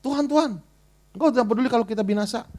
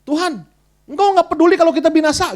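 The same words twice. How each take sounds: First: Brisk quoted cry to the Lord; disciples' plea, read as scripture. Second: High, loud whiny complaint; grumbling at God. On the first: Preacher quoting disciples waking Jesus, brisk quoted plea. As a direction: read the disciples' words quickly, as written. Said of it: "mereka bangunin Tuhan Yesus". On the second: Disciples in the storm nagging Jesus, loud whiny grumble. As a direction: scold the Lord like frightened fishermen. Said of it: "Mereka ngomel sama Tuhan". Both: Retold or imitated.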